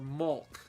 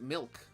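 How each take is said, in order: First: The vowel sounds like the u in up. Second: The vowel sounds like the i in ink. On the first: "or mulk?" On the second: "I pronounce it milk with an I"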